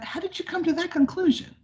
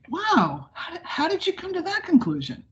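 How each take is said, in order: First: It sounds flat, sarcastic and condescending. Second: It sounds warm, energetic and genuinely curious.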